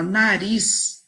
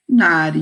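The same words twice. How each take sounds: First: Said in the usual way. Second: "nariz" called loud with a long RIIIZ; loud, sustained RIZ in "nariz", as if calling. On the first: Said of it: "fica um pouco mais difícil". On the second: Shown as a demonstration. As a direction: call out "nariz", stretching the RIZ. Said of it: "uso da dica da tia Andréia".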